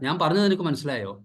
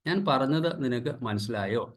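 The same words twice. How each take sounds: First: It is said in a harsh, commanding tone. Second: It is said in a gentle, polite tone. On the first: It creates distance in the family. The speaker calls it wrong. "ഒരു ആജ്ഞാസ്വരത്തിൽ പറയുക" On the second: It builds closeness in the family. The speaker calls it right. "വളരെ പൊളൈറ്റായിട്ട് മര്യാദാമസൃതമായിട്ട് പറഞ്ഞാൽ"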